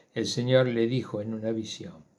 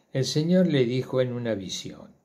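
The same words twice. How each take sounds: The two takes are said the same way.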